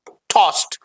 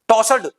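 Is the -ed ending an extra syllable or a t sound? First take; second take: t sound; extra syllable. First: The ending is said as a short t. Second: The ending is said as an extra syllable. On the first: The speaker calls it right. "Right pronunciation is टॉस्ड" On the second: The speaker calls it wrong. "Wrong pronunciation"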